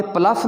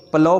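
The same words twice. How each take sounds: First: प्लफ ending in an f, "pluff"; wrong pronunciation. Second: प्लो ending in an open "ow", no f; correct pronunciation. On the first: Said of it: "प्लफ नहीं पढ़ना". (गलत तलफ़्फ़ुज़, प्लफ के आख़िर में "फ़") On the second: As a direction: say प्लो as "plau", gh silent. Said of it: "प्लो पढ़ना है". (सही तलफ़्फ़ुज़, प्लो यानी "प्लाउ") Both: Shown as a demonstration.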